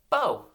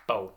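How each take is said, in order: First: Bo high and loud; one loud, high Bo; name called out. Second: Bo as one short beat; clapped syllable. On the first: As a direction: call out Bo for the class to echo. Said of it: "say this name with me". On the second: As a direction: clap out Bo in a single beat. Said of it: "One syllable". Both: Shown as a demonstration.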